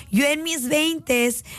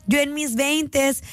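The two takes are said the same way.

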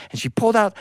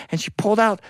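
No difference in how they are said.

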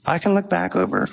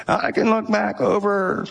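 First: Said in the usual way. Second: Slow, higher imitation of a very old man; slow it down like an elderly man. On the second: Pastor imitating an elderly giver to the church, slow old man voice. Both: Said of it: "he talked like this".

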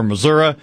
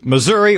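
First: "Missouri" said as muh-ZUR-uh; Missouri ending in -uh. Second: "Missouri" said with an "ee" ending. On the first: Host offering the other in-state version, "Missouri" ending in uh. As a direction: end "Missouri" on a regional "uh". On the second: Host naming the rivalry game, "Missouri" ending in a clear ee. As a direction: say "Missouri" as muh-ZUR-ee. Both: Shown as a demonstration. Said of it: "depending on which part of the state you're from".

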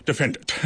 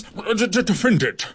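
First: Magisterial. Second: Stumbling, stammered start to the order; stammered defend it. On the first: Goliath ordering the beetle, in his most magisterial voice. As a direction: pronounce it like a grand judge. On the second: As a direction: trip over the first sounds, then land it. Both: Acted. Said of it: "in his most magisterial voice".

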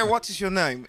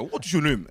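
First: "What is your name?" said high with a British lilt; the British version, higher; imitating a British accent. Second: "What is your name?" with the weight on "your", Nigerian style; the Nigerian version of the question; imitating a Nigerian accent. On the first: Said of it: "es británico". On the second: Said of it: "es de Nigeria". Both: Shown as a demonstration.

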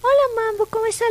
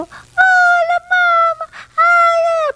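First: Said in the usual way. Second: Put-on high, loud, squealing baby talk; gushing baby talk. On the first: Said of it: "tú le hablas normal". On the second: Shown as a demonstration. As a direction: overdo the cooing at the dog. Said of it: "porque él no es así".

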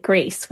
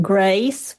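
First: GRACE with a standard, non-regional vowel; standard pronunciation. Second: GRACE with a lowered Southern vowel; particularly Southern vowel. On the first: Linguist showing the Gen X speaker's version, non-regional pronunciation. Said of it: "standard or a non-regional pronunciation". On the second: Linguist contrasting two Georgia generations, Southern pronunciation. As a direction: say grace toward "gryce", as in the South. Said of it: "which might sound particularly Southern". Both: Shown as a demonstration.

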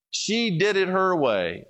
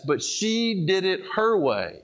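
First: Slow, with the word "did" pushed and falling; stress on did. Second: Slow, with the word "her" pushed and falling; stress on her. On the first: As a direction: lean on "did", slow and deliberate. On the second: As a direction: lean on "her" so it means her own way. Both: Shown as a demonstration.

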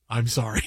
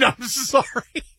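First: Very low banker's token apology; evil banker. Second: Incredulous echo. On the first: Banker answers "what do we do now", deadpan. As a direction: drop deep and deadpan. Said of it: "the evil guy from the bank just says". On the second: Customer throws banker's apology back, incredulous. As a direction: stretch the apology out in laughing disbelief. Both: Acted.

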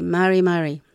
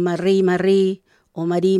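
First: Mari mari, light tapped r, stress on the first syllable; right soft r. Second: Marri marri, rolled r, stress on the last syllable; wrong trilled r. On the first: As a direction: say mari mari with a single soft tap. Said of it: "sino que mari mari". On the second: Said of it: "no lo diga como un". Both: Shown as a demonstration.

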